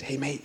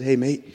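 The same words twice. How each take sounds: First: Whispered hey mate, very soft; hushed whisper to a stranger on a train. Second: Said in the usual way. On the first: Retold or imitated. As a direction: lean in and whisper it. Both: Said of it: "I whispered".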